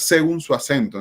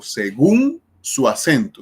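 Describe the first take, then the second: First: Según mis-stressed as SÉ-gun; según with its first syllable stressed; wrong stress. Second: Según drawn out slowly on a stressed -gún; slow down and lean on the end of según; stress on last syllable. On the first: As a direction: put the weight on se- in según. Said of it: "no digo clasificación de las palabras". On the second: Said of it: "no, digo según su acento". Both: Shown as a demonstration.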